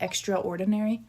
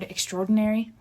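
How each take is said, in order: First: The word is split into extra and ordinary. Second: The word is run together quickly as one. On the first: "he separated it like" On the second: "they just kind of mush it together like that"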